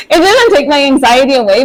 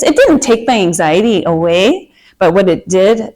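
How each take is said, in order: First: Said in the usual way. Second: Slipping into a Minnesota accent. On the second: Real, not acted. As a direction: Minnesota vowels creeping in. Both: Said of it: "sorry, that was my Minnesota accent".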